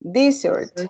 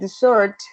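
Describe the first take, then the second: First: The stress is on the first syllable. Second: The stress is on the last syllable.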